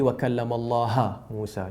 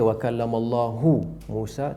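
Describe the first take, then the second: First: The word Allah ends with an 'a' vowel. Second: The word Allah ends with a 'u' vowel. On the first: Moses is the one who speaks to God. "Jadi Musa bercakap kepada Allah" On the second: God is the one who speaks to Moses. "Kerana hu bila Allahu jadi fa'il"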